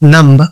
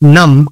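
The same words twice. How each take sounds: First: The final b sound is pronounced. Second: The final b sound is silent. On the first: The speaker calls it wrong. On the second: The speaker calls it right.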